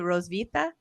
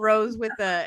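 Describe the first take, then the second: First: The middle begins with a V sound. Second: The middle begins with a W sound. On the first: The speaker calls it right. "so it's more of like a V" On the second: The speaker calls it wrong. "I was reading it as Rose with a"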